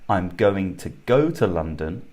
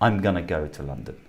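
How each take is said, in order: First: 'Going to' is said in full. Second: 'Going to' is reduced to 'gonna'. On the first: "if we had go" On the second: "We could say I'm gonna go to London"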